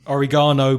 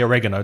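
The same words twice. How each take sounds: First: The stress is not on the second syllable. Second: The stress is on the second syllable.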